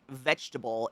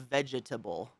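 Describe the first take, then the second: First: The middle syllable is dropped, said as three syllables. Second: Every syllable is pronounced, said as four syllables. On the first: "We like miss a whole bunch of letters in the middle of the word" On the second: "instead of"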